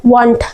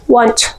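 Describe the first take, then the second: First: Said in the usual way. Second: Want with final t released like "ch"; soft-t WANT. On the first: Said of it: "want नहीं पढ़ना है". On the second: Shown as a demonstration. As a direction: say want as "wantch". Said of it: "क्या पढ़ना है?". (want को "वांच" जैसा बोलें)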